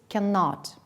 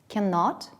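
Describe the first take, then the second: Both takes have the same delivery.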